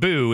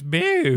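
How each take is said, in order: First: It is said in a plain, ordinary voice. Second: It is said imitating Babidi's odd voice.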